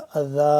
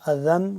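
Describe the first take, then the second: First: The word ends on a long a vowel. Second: The word ends with an n sound. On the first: The reader stops at this word. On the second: The reading continues without stopping.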